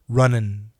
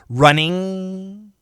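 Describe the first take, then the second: First: The word is said fast, ending in 'in'. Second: The word ends with a full 'ing' sound. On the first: "But when we say it fast" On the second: "Perfect pronunciation"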